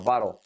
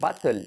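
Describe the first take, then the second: First: The middle consonant is a soft flap. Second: The middle consonant is a hard t sound. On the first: The speaker calls it right. "sino bottle ... bara, bara y luego la L, pero muy atrás" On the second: The speaker calls it wrong. "no bottle"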